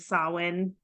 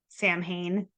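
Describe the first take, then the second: First: It sounds like 'sow-in', with no m or h. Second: It sounds like 'sam-hain', with m and h. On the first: The speaker calls it right. "people mispronouncing Sawin" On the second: The speaker calls it wrong. "mispronouncing Sawin as Sam Hain"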